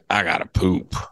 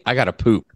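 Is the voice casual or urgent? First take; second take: urgent; casual. First: It is said in a strained, urgent tone. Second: It is said in a plain, casual tone. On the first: The need sounds pressing, so leaving is accepted. "But I'm like" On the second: The need does not sound pressing. "If I just said"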